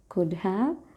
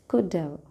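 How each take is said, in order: First: Both words are said fully and separately. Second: 'Have' is reduced and joined to 'could'.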